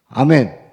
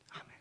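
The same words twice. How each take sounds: First: The word is said aloud with full voice. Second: The word is whispered without voice. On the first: The speaker calls it right. "유성음이에요" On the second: The speaker calls it wrong. "이거 무성음이에요"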